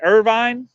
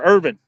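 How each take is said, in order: First: IRVINE ending like "vine"; long-i pronunciation. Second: IRVIN with a short, reduced ending; short-i pronunciation. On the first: Asking chat how a town's name is said, long-i Irvine. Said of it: "do they pronounce that Irvine". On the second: Offering chat the other option, short-ending Irvin. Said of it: "do they pronounce that". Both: Shown as a demonstration.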